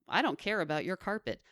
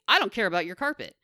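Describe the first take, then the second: First: It is said in a sweet, pleasant voice. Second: It is said in a plain, blunt voice. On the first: "Even in a nice voice" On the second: "it is rude to say"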